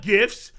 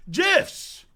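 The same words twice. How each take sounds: First: Gifts said with a hard g and a t; hard g on gifts, the wrong way. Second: Gifs said jifs, soft g, no t. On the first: Showing viewers the wrong way: gifts with a hard g. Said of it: "Not gifts". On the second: Correcting viewers: gifs said jifs, soft g. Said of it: "it's pronounced gifs". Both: Shown as a demonstration.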